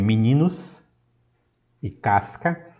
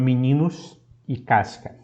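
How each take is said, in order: First: The syllable-final s sounds like s. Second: The syllable-final s sounds like sh. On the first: "a pronúncia como S" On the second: "a pronúncia como Sh"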